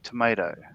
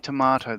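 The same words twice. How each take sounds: First: It is said with an American pronunciation. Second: It is said with a non-American, Australian pronunciation. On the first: "They say tomato, right?" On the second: "Americans, from what I understand, don't say tomato"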